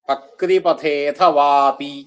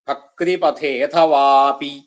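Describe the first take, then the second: The two takes are said the same way.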